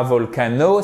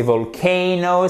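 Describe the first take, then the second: First: VOLCANO said vol-ka-no with French AH; quick, even French-style VOLCANO; wrong French pronunciation. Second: VOLCANO as vol-KAY-no, drawn out; higher, slower VOLCANO with long stressed AY; correct English pronunciation. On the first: Teacher shows students the mistake, French-style pronunciation. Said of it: "c'est pas volcano". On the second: Teacher corrects the mistake for students, English pronunciation. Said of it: "c'est volcano". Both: Shown as a demonstration.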